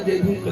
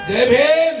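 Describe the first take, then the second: First: It is said lazily, with little energy. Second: It is said loudly, with strong energy. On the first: The greeting is given half-heartedly. The speaker calls it wrong. "आळसल्यासारखं जय भीम कधी करायचं नाही" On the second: The greeting is given with true conviction. The speaker calls it right. "हा खऱ्या आंबेडकरवाद्यांचा जय भीम आहे"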